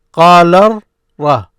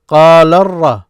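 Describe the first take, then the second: First: "قال ر-" as qaa-larr, short gap, ra; loud split demo of "قال ر-"; syllable demonstration. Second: "قال ر-" loud, linked as qaa-larr-ra; projected demo of "قال ر-" without a gap; syllables joined. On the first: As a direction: hold the R in "قال ر-", then give "ra" apart. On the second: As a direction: run "قال ر-" together through the doubled R. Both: Shown as a demonstration. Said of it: "This is what you hear".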